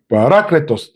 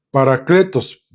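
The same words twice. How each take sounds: First: Parácletos con la A tónica; acento en la A. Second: Parakletos con acento plano; sin acento en la A. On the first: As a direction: marcar la A de parácletos. (parácletos, acento en la A) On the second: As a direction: parakletos dicho sin marcar la A. (parakletos sin acento) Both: Shown as a demonstration. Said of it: "lleva acento en la A".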